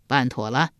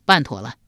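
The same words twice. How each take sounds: First: 办妥了 as a question, lifting at the end. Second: 办妥了 as a statement, falling after the first word; confirming. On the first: Duke asking his returning minister, questioning with a rising 办妥了. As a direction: ask 办妥了 with the final 了 rising. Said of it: "笑问道". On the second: Minister reporting back to the duke, confirming with a falling 办妥了. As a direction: answer 办妥了 firmly, dropping at the end. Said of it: "管仲道". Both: A narrator's reading.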